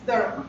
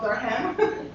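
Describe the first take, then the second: First: The ending is reduced, with no clear 'ham'. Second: The ending is a full, clear 'ham'. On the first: The speaker calls it right. "it's Durham" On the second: The speaker calls it wrong. "because it's not Durham, nothing to do with ham"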